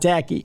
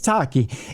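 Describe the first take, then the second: First: The name sounds like the word tacky. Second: The name sounds like Taki, not tacky. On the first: The speaker calls it wrong. "It's not tacky" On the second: The speaker calls it right. "It's Taki"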